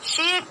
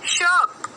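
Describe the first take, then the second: First: The vowel is a long 'ee' sound. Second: The vowel is an 'er' sound. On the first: The speaker calls it wrong. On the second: The speaker calls it right.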